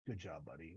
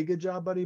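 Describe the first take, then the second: First: Much lower, much softer, flat unspoken praise; barely voiced, keeping a stone face; stone-faced deadpan. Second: Said in the usual way. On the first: Lan silently praising Rand, stone-faced deadpan. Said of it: "he doesn't say, "Good job, buddy," but he, like, stone faces it". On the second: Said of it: "he doesn't say".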